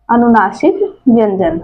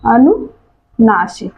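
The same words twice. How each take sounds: First: Said in the usual way. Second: अनुनासिक drawn out slowly, syllable by syllable; अनुनासिक stretched out so students can repeat it; slow teaching repeat. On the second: Shown as a demonstration. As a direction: spell out अनुनासिक slowly for the class.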